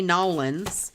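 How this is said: It is said the way locals say it.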